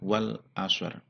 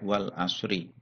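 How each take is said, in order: First: The phrase ends on a consonant, no final vowel. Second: The phrase ends with an added final i vowel. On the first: The reader stops at the end of the verse. The speaker calls it right. "maka membacanya adalah wal asr" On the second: The reader continues as if not stopping. The speaker calls it wrong. "tidak wal asri"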